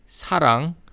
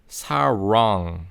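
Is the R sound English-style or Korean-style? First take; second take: Korean; English. First: The R is a light Korean flap. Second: The R is a curled English R. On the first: "we're not going to say" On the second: "we're going to say"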